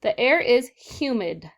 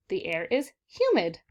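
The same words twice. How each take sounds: First: Slow and firm, every word set apart; teacher reading the sentence aloud, slow and clear; slow model reading. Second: Said in the usual way. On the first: Shown as a demonstration. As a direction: read it slowly so the class can follow. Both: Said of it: "read the sentences".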